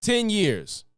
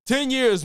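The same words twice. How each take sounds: First: Ten set apart and stressed, Ten years. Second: Ten hit higher and louder, Ten years; loud stress on ten. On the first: Streamer repeating the gap between measles deaths, with Ten stressed. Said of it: "The first person to die in ten years". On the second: Streamer hammering home the measles gap, with Ten punched. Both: Real, not acted.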